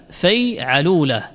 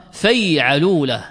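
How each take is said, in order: Both takes have the same delivery.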